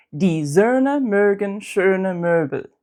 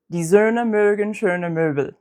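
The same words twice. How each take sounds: First: Die Söhne mögen schöne Möbel slowly, each Ö long and tense; slow practice sentence. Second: Said in the usual way. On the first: Shown as a demonstration. Teacher modelling practice sentence slowly for learners. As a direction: say it slowly, stretch every Ö. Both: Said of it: "here's a sentence".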